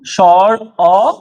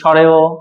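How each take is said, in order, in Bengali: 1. দুটো অংশ আলাদা শব্দ হিসেবে বলা হয়। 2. দুটো অংশ মিলে একটি শব্দ হয়। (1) "সঠিক উচ্চারণগুলো" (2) "কিন্তু আসলে এই উচ্চারণগুলো এরকম নাই।"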